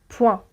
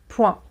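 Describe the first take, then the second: Both takes have the same delivery.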